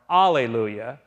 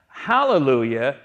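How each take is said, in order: First: "alleluia" starting on "ah" with no H, pitched low; Greek pronunciation. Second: "hallelujah" with the H sounded at the start; Hebrew pronunciation. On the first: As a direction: leave the H off "alleluia", starting straight on the vowel. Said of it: "alleluia in the Greek form". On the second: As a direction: give "hallelujah" its breath of H up front. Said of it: "is the Hebrew way to pronounce". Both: Shown as a demonstration.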